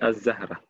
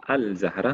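First: The l blends into a doubled z sound. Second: The l is pronounced before the z. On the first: The speaker calls it right. "mais je dis Az-Zahra ... on ne prononce pas le lam" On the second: The speaker calls it wrong. "Je ne dis pas Al-Zahra"

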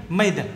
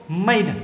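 No difference in how they are said.

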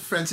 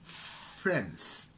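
First: The word is said quickly and short. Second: The word is said slowly and drawn out. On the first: The speaker calls it wrong. "Rather than saying friends" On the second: The speaker calls it right. "Make it longer"

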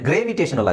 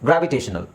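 First: The first syllable is a long 'grave'. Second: The first syllable is a short 'grav'. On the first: The speaker calls it wrong. "ನಾವು ಇಲ್ಲಿಗೆ cut ಮಾಡಿದ್ರೆ ಅದೇನಾಗುತ್ತೆ, ಗ್ರೇವಿಟೇಷನಲ್ ಆಗುತ್ತೆ" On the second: The speaker calls it right. "ಗ್ರಾವ್ ಇ ಟೆ ಶ ನಲ್"

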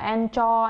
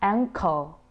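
First: The middle consonant is a ch sound. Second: The middle consonant is a k sound. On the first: The speaker calls it wrong. "rất nhiều người đọc sẽ đọc, có xu hướng đọc là anchor" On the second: The speaker calls it right. "Nhưng phiên âm của nó sẽ là anchor, cur"

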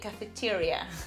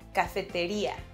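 First: The stress falls before the 'i' syllable. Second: The stress falls on the 'i' syllable. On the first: "So in English you'll say cafeteria" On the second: "we'll have to stress the I, so we pronounce it cafeteria"

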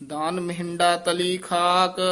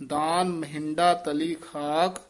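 No difference in how they are said.

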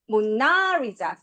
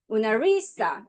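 First: The stress is on the second syllable. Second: The stress is on the third syllable. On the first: "두 번째" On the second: "세 번째"

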